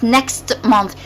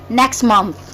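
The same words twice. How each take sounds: First: The T of next is pronounced. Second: The T of next is dropped. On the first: The speaker calls it wrong. "not next month" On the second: The speaker calls it right. "So we skipped the T"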